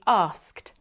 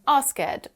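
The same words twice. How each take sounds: First: The ending adds no extra syllable. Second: The ending is said as an extra syllable. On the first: The speaker calls it right. "They should be asked" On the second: The speaker calls it wrong. "try to pronounce the E at the end of the word"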